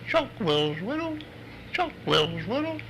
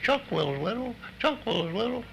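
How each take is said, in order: First: The call is said at a normal pace. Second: The call is said quickly.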